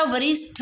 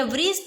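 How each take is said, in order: First: वरिष्ठ ending in aspirated 'ṭha'; correct aspirated ending. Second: वरिष्ठ ending in unaspirated 'ṭe'; mispronounced final consonant. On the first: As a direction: say वरिष्ठ as 'va-rish-ṭha'. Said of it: "वरिष्ठ ही होता है". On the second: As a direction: say वरिष्ठ as 'va-rish-ṭe', no puff. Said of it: "वरिष्ठ नहीं होता". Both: Shown as a demonstration.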